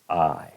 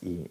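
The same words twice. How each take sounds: First: The vowel glides from one sound to another. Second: The vowel is one steady sound. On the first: The speaker calls it right. "es I" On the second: The speaker calls it wrong. "no es I"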